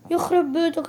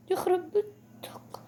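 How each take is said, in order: First: Said in the usual way. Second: Breathy whispered curse, slow; a hushed, slow "يخرب بيتك" under the breath. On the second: Real, not acted. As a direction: whisper it in disbelief. Repeats the phrase, first whispered.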